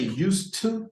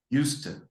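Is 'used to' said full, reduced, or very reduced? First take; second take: full; very reduced. First: Both words are said fully and separately. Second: The two words are blended very heavily and casually. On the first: "you don't say used to, to. No, it doesn't sound right" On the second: "to make it even more uh, informal, it sounds like that"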